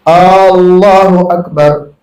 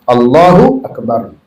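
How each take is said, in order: First: The first vowel of Allah is drawn out long. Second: The first vowel of Allah is short. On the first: It asks whether God is the Greatest. The speaker calls it wrong. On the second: It states that God is the Greatest. The speaker calls it right.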